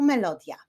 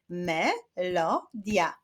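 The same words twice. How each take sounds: First: Said in the usual way. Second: "Melodia" slowly split as me, lo, dia; syllable by syllable. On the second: Shown as a demonstration. Teacher clapping syllables with pupils, "Melodia" said syllable by syllable. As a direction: sound out "Melodia" in three separate beats. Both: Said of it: "Wyklaszczmy sylaby w tych wyrazach".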